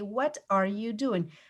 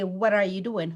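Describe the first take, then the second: First: Each word is said separately and fully. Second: The words are run together and connected. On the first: The speaker calls it wrong. "We don't say" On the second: The speaker calls it right. "We say, ... You're just connecting the words"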